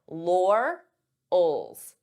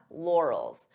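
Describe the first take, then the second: First: The word is split into two separated parts. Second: The word is said smoothly as one unit. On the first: "divide the sounds" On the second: "then you can pronounce it as one"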